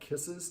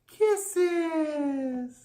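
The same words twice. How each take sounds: First: It is said in a calm, conversational tone. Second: It is said in an exaggerated, non-conversational tone. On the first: The speaker calls it right. "say it kisses... just say conversational tone" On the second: The speaker calls it wrong. "Don't say kisses"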